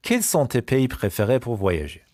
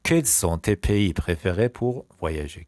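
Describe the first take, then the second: First: Said in the usual way. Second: Slow repeat. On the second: Shown as a demonstration. Teacher repeats the question on favourite countries, slowly. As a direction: take it slowly, phrase by phrase.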